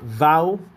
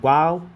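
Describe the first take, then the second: First: The word begins with a v sound. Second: The word begins with a w sound. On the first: This is not the original ancient pronunciation. The speaker calls it wrong. "not vow" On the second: This is the original ancient pronunciation. The speaker calls it right. "Its original to the Hebrew ancestors was pronounced wow"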